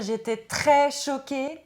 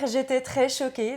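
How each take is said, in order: First: The shock is expressed strongly, with heavy emphasis. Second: The shock is expressed mildly, with little emphasis.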